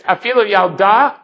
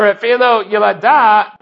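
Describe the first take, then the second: First: Yalda in two syllables, yal-da; noun pronunciation. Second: Yalada in three syllables, ya-la-da; verb pronunciation. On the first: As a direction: say Yalda as the noun, no vowel between l and d. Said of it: "which would be the noun". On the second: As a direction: say Yalada as the verb, with a vowel after the l. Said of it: "and would be a verb". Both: Shown as a demonstration.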